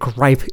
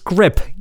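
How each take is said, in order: First: The vowel is a long 'eye' sound. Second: The vowel is a short 'ih' sound. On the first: The speaker calls it wrong. "I've always pronounced it gripe" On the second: The speaker calls it right. "It's grip"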